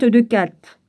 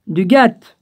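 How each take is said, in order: First: "Gath" starting with a K sound; misread first consonant. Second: "Gath" starting with G, not K; corrected first consonant. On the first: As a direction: say "Gath" with a hard K, as "Kat". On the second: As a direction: say "Gath" with a voiced hard G, as "Gat". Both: Real, not acted. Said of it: "j'ai cru que c'était un C".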